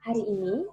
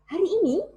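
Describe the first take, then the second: First: It is said with ordinary, lower energy. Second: It is said with more power and energy.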